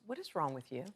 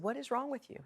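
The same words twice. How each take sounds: First: Said in the usual way. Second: Wrong pushed up high, whole line pitched higher; higher, insistent repeat with wrong stressed. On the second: Retold or imitated. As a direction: lean hard on wrong, like a pushy repeat. Stranger repeats his question insistently.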